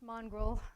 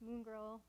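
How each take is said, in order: First: The name sounds like 'mongrel'. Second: The name sounds like 'moon girl'. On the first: The speaker calls it wrong. "It's not pronounced Mongrel" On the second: The speaker calls it right. "It's pronounced Moongirl"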